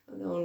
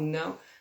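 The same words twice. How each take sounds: First: The word is said softly and uncertainly. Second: The word is said sharply and forcefully. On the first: It is unclear whether it is really a refusal. "ficamos naquela se é mesmo um não ou se não é" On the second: The refusal is definite and startling. "Às vezes damos logo um pulo quando é assim um não"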